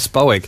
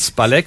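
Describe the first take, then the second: First: The middle consonant sounds like an English W. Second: The middle consonant is a plain L sound. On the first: The speaker calls it right. "das L hat im Polnischen einen Querstrich durch. ... wie im Englischen ein Well" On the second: The speaker calls it wrong. "Sie hat nicht gesagt Spalek"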